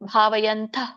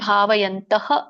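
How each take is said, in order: First: The word ends without a final breathy ha. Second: The word ends with a clear breathy ha. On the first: "ಭಾವಯಂತ ಅಂತ ಮಾತ್ರ ಹೇಳಿ" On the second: "ಭಾವಯಂತಹ ಅಂತ ಹೇಳಿ"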